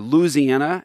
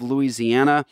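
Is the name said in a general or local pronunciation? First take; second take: local; general. First: The name has the local Louisiana pronunciation. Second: The name has a general American pronunciation.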